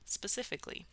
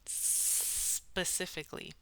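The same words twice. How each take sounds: First: The S sound is held for a medium length. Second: The S sound is stretched out very long. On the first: "just like maybe a medium length S sound" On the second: "so you just extend that"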